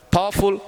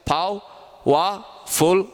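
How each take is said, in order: First: Said in the usual way. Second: "Pow, wa, full" in three higher, separated beats; syllable by syllable. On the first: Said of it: "three syllable". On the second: Shown as a demonstration. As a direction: break powerful into "Pow", "wa", "full" with clear gaps. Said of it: "There are three syllable".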